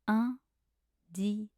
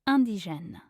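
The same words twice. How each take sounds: First: It is said slowly. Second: It is said at normal speed.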